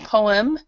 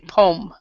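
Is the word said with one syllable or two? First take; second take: two; one. First: Both vowels are sounded, giving two syllables. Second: The second vowel is dropped, giving one syllable. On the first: The speaker calls it wrong. "we don't say poem. So you don't you don't actually say both of the vowels here" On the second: The speaker calls it right. "we actually don't pronounce this second vowel. So we say poem"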